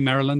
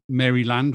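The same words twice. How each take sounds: First: Maryland is pronounced the American way. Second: Maryland is pronounced the British way. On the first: The speaker calls it right. "learned to say it correctly" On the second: The speaker calls it wrong. "which is how I used to say it"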